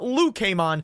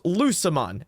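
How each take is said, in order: First: The name begins with the sound of 'Luke'. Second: The name begins with the sound of 'Lucifer'. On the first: The speaker calls it wrong. "It's not Lucamon" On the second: The speaker calls it right. "it is Lucamon, as in Lucifer"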